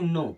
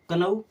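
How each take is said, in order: First: The word begins with an n sound. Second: The word begins with a k sound. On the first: The speaker calls it right. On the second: The speaker calls it wrong.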